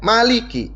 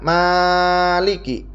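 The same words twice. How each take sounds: First: The vowel after the m is short. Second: The vowel after the m is long. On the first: "mimnya itu dibaca pendek" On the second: "Yang pertama mimnya dibaca panjang"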